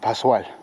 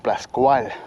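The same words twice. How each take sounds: First: The S-C is said as one long 's'. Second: The S-C is said as an 'sk' sound. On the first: The speaker calls it right. "it's just like a super S" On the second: The speaker calls it wrong. "I thought it was Playa Pascual. ... we pronounce it C like K"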